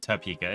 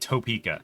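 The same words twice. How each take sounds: First: The first syllable is reduced to 'tuh'. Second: The first syllable has a full 'toe' vowel. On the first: Locals say it this way. "everybody else calls it Topeka" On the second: A newcomer to the city says it this way. "I have a friend who pronounces it Toe"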